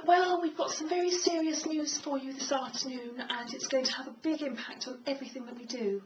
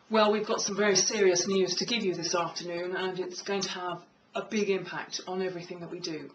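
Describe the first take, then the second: First: High, light demo voice; high-pitched voice. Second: Low, authoritative delivery with gravitas; lower-pitched voice. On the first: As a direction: deliver it in a raised, higher register. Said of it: "Do you have a high tone voice". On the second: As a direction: say it in a lower, serious register. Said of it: "lower pitches of voice". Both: Shown as a demonstration.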